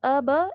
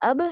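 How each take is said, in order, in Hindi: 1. अंतिम b के बाद एक पूरा स्वर आता है। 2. अंतिम b एक छोटे झटके के साथ छोड़ा जाता है। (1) "ऐसे नहीं करना है" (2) "जैसे अब है"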